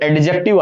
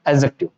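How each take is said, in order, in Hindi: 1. J से पहले D ध्वनि बोली जाती है। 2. J से पहले D ध्वनि साइलेंट रहती है। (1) "पढ़ने में तो एडजेक्टिव आता है" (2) "ये डी जो है ना यहाँ पे साइलेंट होता है"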